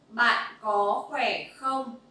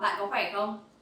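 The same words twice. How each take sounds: First: The phrase is said at a slower pace. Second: The phrase is said at a faster pace. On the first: "One more time" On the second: "let's go a little bit faster"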